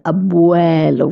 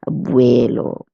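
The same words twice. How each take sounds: First: It is said with a wide open mouth. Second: It is said with a less open mouth. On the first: The speaker calls it right. "We pronounce it nice and open mouth" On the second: The speaker calls it wrong. "most people would have the tendency of pronouncing this word as"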